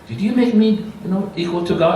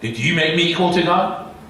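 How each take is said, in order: First: The question is said mildly, without force. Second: The question is said forcefully, in a stern tone. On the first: The speaker calls it wrong. "You can't say it like that" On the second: The speaker calls it right. "So that is a, a, a strong tone"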